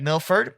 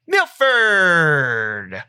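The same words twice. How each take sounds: First: Said in the usual way. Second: "Milford" hugely drawn out, gliding down; hammed-up "MIL-FOOORD", stretched like an announcer's call; exaggerated correction. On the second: Shown as a demonstration. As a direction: blare out "Milford" with a long, falling last syllable. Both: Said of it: "excuse me".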